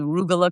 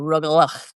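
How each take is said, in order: First: The word ends without a throaty sound. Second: The word ends with a harsh throaty sound.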